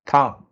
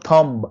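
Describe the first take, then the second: First: "Thumb" ending on m, no b; silent B. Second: "thumb" with an audible b after the m; sounded B. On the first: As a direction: say "Thumb" as "tum", lips closed on m. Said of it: "You can see B is silent". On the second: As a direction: wrongly release a b ending "thumb". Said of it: "It's not thumb". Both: Shown as a demonstration.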